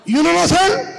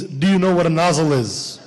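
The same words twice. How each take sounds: First: High, rising Pakistani clerk question; Pakistani accent. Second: Said in the usual way. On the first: Acted. Clerk quizzing the Russian lady, Pakistani accent. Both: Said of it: "That means".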